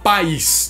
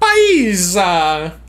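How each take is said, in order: First: It ends on the consonant s. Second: An extra vowel is added after the s. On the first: "a gente vai falar país" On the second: "Se eu fosse italiano, eu ia falar paisa"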